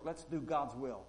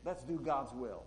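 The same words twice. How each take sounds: First: Let's do God's will, leaning on God's; stress on God's. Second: Let's do God's will, leaning on Let's; stress on let's. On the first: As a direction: press the word God's. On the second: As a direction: push the word Let's. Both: Shown as a demonstration. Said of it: "make that your first work".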